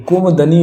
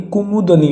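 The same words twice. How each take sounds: First: कुमुदनी squeezed to "kum-dani"; wrong pronunciation shown. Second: कुमुदनी with both u sounds; correct pronunciation shown. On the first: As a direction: drop the second u in कुमुदनी. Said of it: "होगा नहीं". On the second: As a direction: say कुमुदनी as "ku-mu-da-nee". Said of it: "कुमुदनी होगा". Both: Shown as a demonstration.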